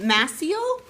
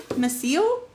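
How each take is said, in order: First: Maciel with first syllable MASS, questioning rise; trying out a name. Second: Maciel with a reduced first syllable, muh-SEEL; unsure Maciel, weight on the second syllable; trying another pronunciation. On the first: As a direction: try Maciel as MASS-eel, unsure. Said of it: "how do you say your name?". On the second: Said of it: "emphasis on the wrong syllable". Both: Shown as a demonstration.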